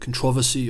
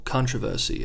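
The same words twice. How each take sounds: First: It is said in a non-North-American way. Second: It is said in a North American way.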